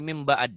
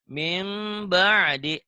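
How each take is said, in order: First: The word ends on a stopped consonant. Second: The word ends with a short vowel sound. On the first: The reading stops at this word. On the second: The reading continues without stopping.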